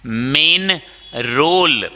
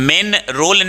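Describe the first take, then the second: First: "main" drawn out with a long ay. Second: "Main" high and short, like "men"; wrong short vowel. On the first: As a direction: stretch "main", pause before role. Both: Shown as a demonstration. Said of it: "Main role not".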